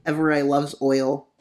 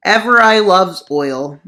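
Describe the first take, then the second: First: Said in the usual way. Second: Louder repeat. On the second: Pretend. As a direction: proclaim Everai loves oil, louder.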